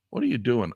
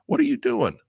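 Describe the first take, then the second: First: Said in the usual way. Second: High, exasperated cry at the screen; real frustrated squeal at software. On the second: Real, not acted. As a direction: demand it from the stupid program. Yelling at the PDF software.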